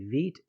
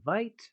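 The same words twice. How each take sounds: First: The word is said with French pronunciation. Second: The word is said without French pronunciation. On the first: The speaker calls it right. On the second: The speaker calls it wrong.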